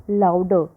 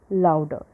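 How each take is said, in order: Both takes have the same delivery.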